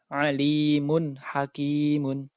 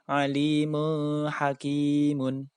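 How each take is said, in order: First: The n sound is pronounced clearly. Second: The n sound is not pronounced clearly. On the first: The speaker calls it right. "wajib dibaca jelas" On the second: The speaker calls it wrong. "Tidak boleh dibaca"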